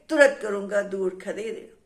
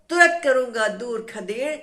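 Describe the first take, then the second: First: Lower angry threat. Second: Louder, rising threat; angry threat. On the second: Tree threatening the teasing wind, loud angry threat. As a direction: push the threat out hard at the wind. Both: Acted. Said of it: "गुस्से में वो जो है हवा पर नाराज हो गया".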